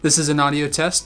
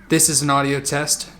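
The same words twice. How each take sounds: First: The voice sounds drier with less room echo. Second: The voice has noticeable room echo and reverberation. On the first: The speaker calls it right. "with blankets hung up behind the camera. It's helping to deaden some of that room noise" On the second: The speaker calls it wrong. "an audio test with no blankets behind the camera or the microphone"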